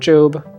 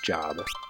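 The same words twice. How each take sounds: First: The vowel is long, rhyming with robe. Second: The vowel is short, rhyming with rob. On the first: It names the biblical figure. The speaker calls it wrong. "not Job. It's not another biblical reference" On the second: It means an occupation. The speaker calls it right. "It's Job"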